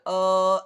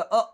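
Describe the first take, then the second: First: The vowel is drawn out very long. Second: The vowel is cut off with a jerk. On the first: "ज्यादा खींचना अ ऐसा खींचना नहीं" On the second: "झटका अ ऐसा भी नहीं करना"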